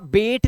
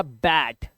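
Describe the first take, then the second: First: बेट with a long "ay" vowel, like bait; wrong reading of bat. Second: बैट with the open "ae" vowel; correct reading of bat. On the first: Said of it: "इसे आप बेट नहीं पढ़ोगे". (बेट, लंबे ए के साथ) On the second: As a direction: say बैट with short A, not "bait". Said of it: "तो ये हो गया बैट". (बैट, खुले "ऐ" के साथ) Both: Shown as a demonstration.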